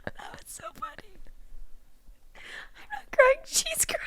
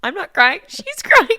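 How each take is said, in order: First: Squeaky whisper, crying with laughter; can barely get words out for laughing; real laughter-tears wheeze; breathless laughing. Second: Higher, louder playful deflection; laughing, teary denial; teary mock denial. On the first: Real, not acted. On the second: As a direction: push the tears onto someone else, laughing.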